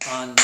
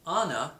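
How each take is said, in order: First: "Anna" broken into two beats; syllable demonstration. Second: Said in the usual way. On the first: Shown as a demonstration. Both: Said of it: "has two".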